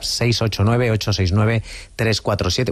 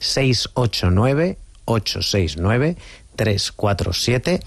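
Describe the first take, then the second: First: The number is said at a quick pace. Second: The number is said slowly and carefully.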